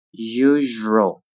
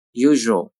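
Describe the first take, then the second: First: "Usual" with a held zh; slow careful "Usual"; drawn-out model. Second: Said in the usual way. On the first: Shown as a demonstration. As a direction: stretch "Usual" out for learners. Teacher models word slowly, then normally.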